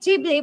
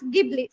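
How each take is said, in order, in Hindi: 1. यह जापानी शैली के उच्चारण में बोला जाता है। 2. यह ऑस्ट्रेलियाई शैली के उच्चारण में बोला जाता है। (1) "in Japanese uh, they said Ghibli" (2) "in Australian they pronounce Ghibli"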